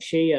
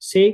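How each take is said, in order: First: The word begins with an sh sound. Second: The word begins with an s sound. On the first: The speaker calls it right. "షై అనాలి" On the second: The speaker calls it wrong. "షై కూడా అనకూడదు"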